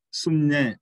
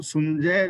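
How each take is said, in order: First: ਸੁਣਜੈ with the nasal ਞ sound, not ਜ or ਝ; correct reading. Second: ਸੁਣਜੈ with a hard j sound, sunjai; wrong reading. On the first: Preacher teaching the right nasal sound in ਸੁਣਜੈ. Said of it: "ਇਹ ਨੰਨਾ ਹੈ". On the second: Preacher showing the wrong reading of ਸੁਣਜੈ. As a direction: read ਸੁਣਜੈ with a plain ਜ. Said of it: "ਇਹਨੂੰ ਸੁਣਜੈ ਨਹੀਂ ਪੜ੍ਹਨਾ". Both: Shown as a demonstration.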